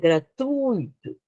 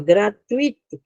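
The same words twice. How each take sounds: First: The stress falls on the u sound. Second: The stress falls on the i sound. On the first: The speaker calls it right. "Primeiro é o U forte, depois o I" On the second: The speaker calls it wrong. "que as pessoas dizem, né? É errado"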